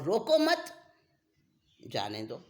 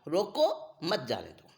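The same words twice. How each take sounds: First: A pause comes right after the second word. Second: A pause comes right after the first word. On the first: Do not stop him, let him go. "अगर रोको मत के बाद अल्प विराम लगा तो विपरीत अर्थ निकल गया" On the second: Stop him, do not let him go. "जब रोको पे अल्प विराम लग गया"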